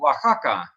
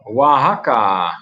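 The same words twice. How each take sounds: First: The x is a rough sound from the throat. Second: The x is said without a throaty rasp.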